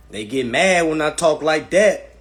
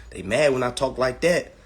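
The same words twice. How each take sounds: First: Louder and slower, leaning on every word; emphatic repeat. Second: Said in the usual way. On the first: Shown as a demonstration. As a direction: hammer the line home, slow and loud.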